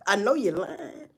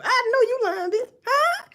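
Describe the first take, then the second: First: Said in the usual way. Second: "know" thrown up high; high disbelief. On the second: Real, not acted. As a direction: squeal it out in mock shock. Mock disbelief at someone.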